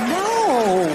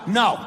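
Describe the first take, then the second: First: It is said playfully and teasingly. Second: It is said firmly and seriously.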